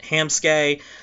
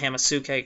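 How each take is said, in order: First: No vowel follows the first syllable. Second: An extra vowel follows the first syllable. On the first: The speaker calls it right. "I mean Hamsuke" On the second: The speaker calls it wrong. "not Hamasuke. God, I've mispronounced it"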